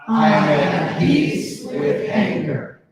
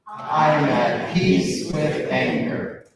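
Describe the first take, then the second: First: It is said with strong conviction. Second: It is said without much conviction.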